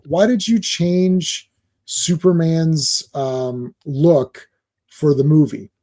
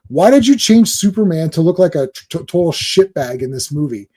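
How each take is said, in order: First: Slow, hesitant nice fan asking meekly; timid polite fan. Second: Mock accusing fan, pushy; confrontational question. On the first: Retold or imitated. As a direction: ask it shyly and haltingly, not attacking. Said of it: "I'll say it the way he really said it". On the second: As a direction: fire the question at him like an accusation. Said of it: "He, he didn't say it like that".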